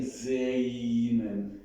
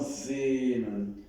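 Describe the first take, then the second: First: Sehnen with an exaggerated e-i glide; imitated wrong vowel. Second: Sehnen with a long, pure e; model pure e. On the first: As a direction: stretch sehnen into "zey-nen". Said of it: "you're saying sehnen". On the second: Shown as a demonstration. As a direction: hold the e in sehnen without gliding to i. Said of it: "it's not, it's more sehnen".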